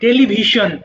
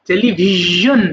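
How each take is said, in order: First: It is said with an 'sh' sound. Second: It is said with a 'zh' sound. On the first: The speaker calls it wrong. "আমরা বলি শোন বলি টেলিভিশন, এটা রং" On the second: The speaker calls it right. "তাহলে এটা হবে কি জ টেলিভিশন"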